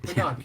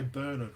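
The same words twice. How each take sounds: First: Bernard is pronounced the American way. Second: Bernard is pronounced the Australian way. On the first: "kind of sounds cool as well" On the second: "With the way Aussies would say it"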